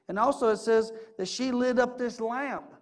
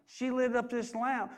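First: Said in the usual way. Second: "lit" stressed and each word slowed; slow emphatic repeat. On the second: Shown as a demonstration. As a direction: lean on "lit", drawing the phrase out. Preacher repeats a key phrase.

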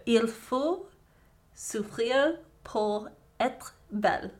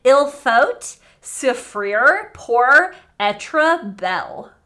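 First: Slow, careful amateur French accent; attempted French accent. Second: Loud, very slow French in a broad American accent. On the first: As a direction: try the line in a French accent. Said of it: "me saying it in a French accent". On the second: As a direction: butcher the French with hard American sounds. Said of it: "saying it in an American accent". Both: Shown as a demonstration.

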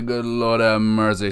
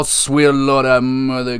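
First: Said in the usual way. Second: Excited. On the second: Real, not acted. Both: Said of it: "Sorry, I'm a little excited".

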